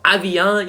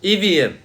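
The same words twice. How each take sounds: First: The word is said with a French pronunciation. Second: The word is said rhyming with Vivian. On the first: The speaker calls it wrong. "that French Evian" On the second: The speaker calls it right. "Like Vivian"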